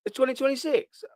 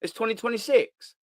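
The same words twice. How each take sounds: First: Higher, more astonished second ask; louder disbelief. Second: Said in the usual way. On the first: Retold or imitated. Fan rereading the newspaper date, higher astonishment. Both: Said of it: "repeated take".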